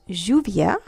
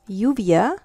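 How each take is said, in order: First: The word begins with a soft j sound. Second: The word begins with a y sound.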